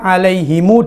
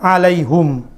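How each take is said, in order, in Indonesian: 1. Kata itu berakhir dengan him yang diikuti u. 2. Kata itu berakhir dengan hum tanpa huruf vokal setelahnya. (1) "dengan silah" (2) "alaihim membaca dengan alaihum"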